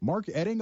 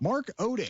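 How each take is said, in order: First: The surname begins with an 'eh' sound. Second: The surname begins with an 'oh' sound. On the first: The speaker calls it right. "so it's like the O is silent" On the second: The speaker calls it wrong. "Hold on, hold on. It's pronounced Edding"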